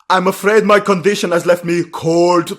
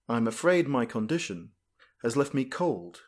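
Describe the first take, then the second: First: It is said in an imitated character voice. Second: It is said in the speaker's own plain voice.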